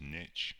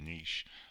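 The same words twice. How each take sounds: First: It is pronounced the North American way. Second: It is pronounced the British way. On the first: "in North America it's pronounced niche" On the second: "I'm from the U K, we pronounce it niche"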